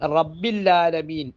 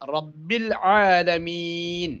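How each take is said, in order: First: The throat sound is dropped, merging into 'l'. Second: A clear throat sound starts the second word. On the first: It sounds like saying 'there is no Lord'. The speaker calls it wrong. "ഐനിൻ്റെ ഉച്ചാരണം ലാമിലേക്ക് വരുമ്പോൾ റബ്ബില്ല എന്നാണ്" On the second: It means 'Lord of the worlds'. The speaker calls it right. "റബ്ബില്ല എന്നുമല്ല റബ്ബല്ല എന്നുമല്ല"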